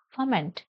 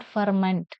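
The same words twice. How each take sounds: First: "ferment" as fuh-ment, silent r; correct pronunciation. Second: "ferment" with r sounded; mistaken pronunciation. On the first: Teacher corrects the word for students, "ferment" without r. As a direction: drop the r in "ferment". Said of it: "It is ferment". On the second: Teacher shows students what to avoid, "ferment" with clear r. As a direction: say "ferment" as far-ment, r pronounced. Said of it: "Not ferment". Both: Shown as a demonstration.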